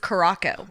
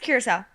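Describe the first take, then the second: First: The name ends with a 'co' sound. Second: The name ends with a 'sow' sound. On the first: The speaker calls it wrong. "I used to think it was Caraco" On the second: The speaker calls it right. "It's Curacao"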